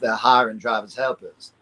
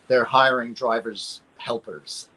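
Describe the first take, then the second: First: It is said in a Southern American accent. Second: It is said without a Southern American accent.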